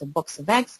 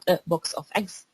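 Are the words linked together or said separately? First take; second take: linked; separate. First: The words run together with linked sounds. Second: The words are said separately. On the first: "but it's a box of eggs" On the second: "which is not a box of eggs"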